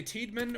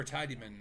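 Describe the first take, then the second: First: "Tiedman" in two syllables, long ee in the first; two-syllable pronunciation. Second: "Tidyman" in three syllables, first like tie; three-syllable pronunciation. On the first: Streamer debating a station's name, "Tiedman" as TEED-man. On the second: Streamer debating a station's name, "Tidyman" as TIE-dee-man. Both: Shown as a demonstration. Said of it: "do you say Tiedman or Tidyman".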